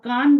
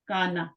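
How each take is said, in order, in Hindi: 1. अंतिम व्यंजन के बाद कोई स्वर नहीं बोला जाता। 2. अंतिम व्यंजन के बाद एक स्वर बोला जाता है। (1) "हमारी उर्दू में इस तरह पढ़ा जाता है, ठीक है? सुकून के साथ।" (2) "अरबी में कैसे पढ़ा जाता है उसके ऊपर कुछ ना कुछ लगाया जाता है।"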